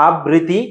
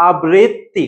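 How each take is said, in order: First: আবৃত্তি said with a single short t, as a-bri-ti; আবৃত্তি mispronounced as a-bri-ti; wrong pronunciation. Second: আবৃত্তি slowly as a-brit-ti, double t held; slow teacherly a-brit-ti for আবৃত্তি; correct pronunciation. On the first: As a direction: drop the doubled t in আবৃত্তি. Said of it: "এটাও হবে না". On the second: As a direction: split আবৃত্তি and lean on the double t. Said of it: "উচ্চারণটা কি হবে বলো তো". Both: Shown as a demonstration.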